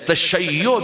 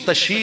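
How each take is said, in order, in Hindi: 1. शब्द के अंत में दोहरा y और o आता है। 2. यह शब्द दो अक्षरों में छोटा होकर tashi बन जाता है।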